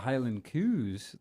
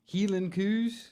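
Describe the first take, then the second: First: Highland is said with standard English vowels. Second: Highland is said the Scots way, as Heelan. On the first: The speaker calls it wrong. "that's not how you pronounce it" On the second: The speaker calls it right. "That's it. That's better"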